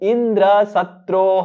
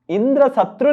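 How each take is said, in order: First: The final syllable is drawn out longer. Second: The final syllable is short and clipped. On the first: One whom Indra will kill. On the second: One who will come to kill Indra.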